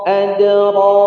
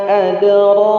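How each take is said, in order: No difference in how they are said.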